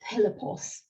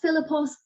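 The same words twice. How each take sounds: First: The first consonant is an aspirated voiceless stop. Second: The first consonant is not an aspirated stop. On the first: The speaker calls it right. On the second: The speaker calls it wrong.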